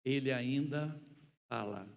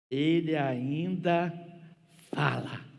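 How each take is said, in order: First: Said in the usual way. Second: "Ele ainda" stretched slow and loud, then "fala" punched; loud, drawn-out "ainda" before a firm "fala"; emphatic declaration. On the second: Real, not acted. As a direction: draw out "Ele ainda" forcefully, land hard on "fala". Preacher repeats refrain for emphasis.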